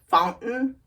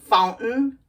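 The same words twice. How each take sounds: No difference in how they are said.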